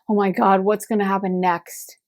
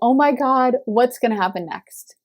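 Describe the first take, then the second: First: It is said with fear and dread. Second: It is said with eager excitement. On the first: Something bad is expected to happen. The speaker calls it wrong. "so shell shocked and so hurt that you started expecting the worst" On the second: Something good is expected to happen. The speaker calls it right. "the tone of voice. Like, I'm so excited"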